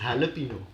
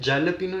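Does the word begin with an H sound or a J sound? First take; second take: H sound; J sound. First: The word begins with an H sound. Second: The word begins with a J sound. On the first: The speaker calls it right. "It is हैलपिनो" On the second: The speaker calls it wrong. "जैलपिनो नहीं होता"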